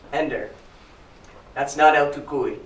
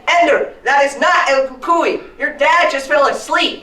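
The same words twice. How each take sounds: First: Level, unhurried reassurance; calm mother. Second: High, loud emphatic scolding; exasperated mother. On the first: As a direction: settle the child down, evenly. Mother calmly corrects frightened child. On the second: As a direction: shout it word by word, fed up. Acts exasperated mother scolding child. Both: Acted.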